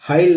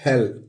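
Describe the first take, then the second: First: The vowel sounds like 'eye'. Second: The vowel sounds like 'ay'. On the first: The speaker calls it wrong. "हाइल नहीं पढ़ेंगे इसको" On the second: The speaker calls it right. "इसको पढ़ेंगे हेल"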